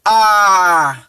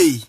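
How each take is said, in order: First: A drawn out as "aah"; open, long "ah" for A; preferred pronunciation. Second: A said as the letter name "ay"; the rejected "ay" for A; wrong pronunciation. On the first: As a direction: hold A as a slow "aaah". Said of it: "You pronounce it A". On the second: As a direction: say A as English "ay". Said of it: "you not pronounce it". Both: Shown as a demonstration.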